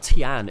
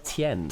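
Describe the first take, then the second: First: The name ends with an 'an' sound. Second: The name ends with an 'en' sound. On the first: The speaker calls it wrong. "it's not Tian" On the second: The speaker calls it right. "it's Tien"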